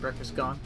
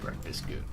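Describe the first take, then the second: First: The second word has a short 'o' vowel. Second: The second word has a long 'oo' vowel.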